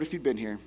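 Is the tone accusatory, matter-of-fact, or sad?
matter-of-fact. It is said in a matter-of-fact tone.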